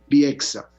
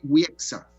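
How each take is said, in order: First: The name begins with a B-like sound. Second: The name begins with a W sound. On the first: The speaker calls it right. "queda como una B" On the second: The speaker calls it wrong.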